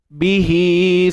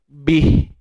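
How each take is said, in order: First: The word ends with a vowel sound. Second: The word ends without a vowel sound. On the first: The reading continues into the next word. "yang berlaku ketika bersambung sahaja" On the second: The reading stops at this word. "Kalau kita tak sambung"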